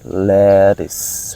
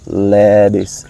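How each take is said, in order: First: The middle consonant is a clear T sound. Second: The middle consonant sounds like a D. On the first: "The sound of T" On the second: "in American pronunciation, the T become D. That's why I say lettuce"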